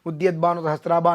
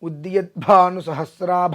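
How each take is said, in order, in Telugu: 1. "bh" ధ్వనిలో మహాప్రాణం లేదు. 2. "bh" ధ్వనిలో బలమైన మహాప్రాణం ఉంది. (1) "అని చెప్పేస్తారు" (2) "అన్నప్పుడు"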